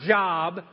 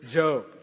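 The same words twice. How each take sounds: First: The vowel sounds like the one in 'jog'. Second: The vowel sounds like the one in 'joke'. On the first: It names ordinary work. The speaker calls it wrong. "It's not Job, although it's spelled the same way" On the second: It names the man in the Bible. The speaker calls it right. "but it's actually the word Job"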